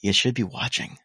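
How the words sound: It sounds strongly and theatrically judgmental.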